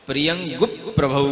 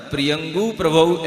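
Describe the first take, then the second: First: प्रियंगु प्रभौ with the p doubled, प्रियंगुप्-प्रभौ; correct reading. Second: प्रियंगु प्रभौ with no doubled p before प्रभौ; प्रियंगु प्रभौ run flat, single p; the mistaken way; wrong reading. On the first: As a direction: hold the p before प्रभौ. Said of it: "कैसे पढ़ना". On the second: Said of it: "ऐसे नहीं पढ़ना". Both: Shown as a demonstration.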